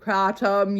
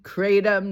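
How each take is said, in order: First: The first vowel is an open 'ah' sound. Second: The first vowel is a long 'ay' sound. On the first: The speaker calls it right. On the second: The speaker calls it wrong.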